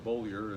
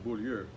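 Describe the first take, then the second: First: The name is pronounced the English way. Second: The name is pronounced the French way. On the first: The family later adapted the name to English. "we anglicized it to" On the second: This is the family's original name. "in French in French Canadian, when I grew up, it was"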